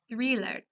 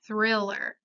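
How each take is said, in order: First: "thriller" with a Spanish ee sound, treeler; Spanish I vowel. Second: "thriller" with the short English ih vowel. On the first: Teacher giving examples of anglicisms, "thriller" with Spanish ee. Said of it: "se conserva su sonido vocálico en español". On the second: Teacher contrasting with Spanish, "thriller" with English short I. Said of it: "Es diferente a la pronunciación en inglés". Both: Shown as a demonstration.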